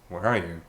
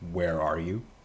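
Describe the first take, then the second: First: It is asked in a reproachful, accusing tone. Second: It is asked as a plain, gentle question. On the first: The asker blames the other for not being here. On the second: The asker simply wants to know the location.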